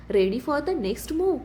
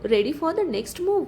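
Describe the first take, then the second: First: Drawn out slowly, calm menacing smile in it; villain on the big screen slowly repeats his challenge; slow taunting challenge. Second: Drawn out slowly, a smug villain teasing; villain slowly taunts the office over a video call; slow taunting challenge. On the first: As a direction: savour every word, unhurried threat. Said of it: "शांत स्मित". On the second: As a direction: stretch each word like a taunt. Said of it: "तो हसत म्हणतो". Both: Acted.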